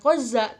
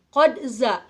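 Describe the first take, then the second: First: The q-d sound runs together into za. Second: The q-d sound is said clearly before za. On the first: The speaker calls it wrong. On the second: The speaker calls it right. "harus idhar, harus jelas"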